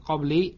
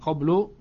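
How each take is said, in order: First: It is said qabli, ending in -i. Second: It is said qablu, ending in -u. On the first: "bukan qabli" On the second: "bukan qablu"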